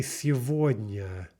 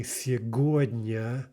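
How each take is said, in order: First: Сегодня with a V for the G; slow сегодня, said as si-VOD-nya; spoken pronunciation. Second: Сегодня with a hard G; slow сегодня, said as sye-GOD-nya; spelling pronunciation. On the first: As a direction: say сегодня with v in the middle. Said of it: "We say сегодня". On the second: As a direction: say сегодня as written, g in the middle. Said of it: "but we don't say сегодня". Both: Shown as a demonstration.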